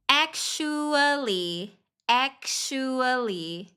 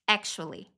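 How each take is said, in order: First: ACTUALLY stretched long, every syllable held; very slow demo. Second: Said in the usual way. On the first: Shown as a demonstration. Teacher repeating the word for learners, very slowly. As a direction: say "Actually" very slowly, pitched slightly up. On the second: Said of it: "médio e mais avançado".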